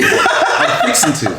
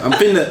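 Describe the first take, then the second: First: The words 'fixing to' are said in full. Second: The words blend into the short form 'finna'. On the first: It is the older generation's way of saying it. "My mom's generation called it fixing" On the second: It is the younger generation's way of saying it. "our generation called it finna"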